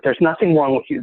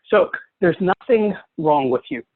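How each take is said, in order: First: "nothing" given mild extra weight; stress on nothing. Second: Said in the usual way. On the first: Shown as a demonstration. Teacher reassuring the webinar audience, a gentle stress on "nothing". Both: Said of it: "A little disclaimer before we start".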